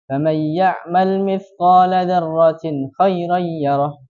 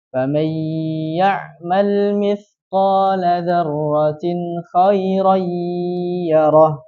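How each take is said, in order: First: The nasal sound is cut short and rushed. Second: The nasal sound is held long and drawn out. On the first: The speaker calls it wrong. "jangan terlalu terburu-buru" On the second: The speaker calls it right. "Tidak, tapi dipanjangkan"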